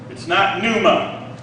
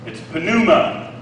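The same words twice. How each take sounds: First: Pneuma with a silent P. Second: Pneuma with the P sounded, puh-new-ma; P pronounced. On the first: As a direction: say it new-ma, dropping the P. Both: Shown as a demonstration. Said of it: "you pronounce the P".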